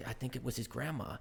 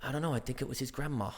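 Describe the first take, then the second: First: Put-on soft American-accented recital. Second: Put-on American accent slipping into posh British; posh halfway through. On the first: Actor recalls Spider-Man's line, soft American accent. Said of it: "incredible American accent". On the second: Spider-Man actor loses his accent mid-line, going posh. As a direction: start American, quietly turn posh British. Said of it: "I went posh halfway through".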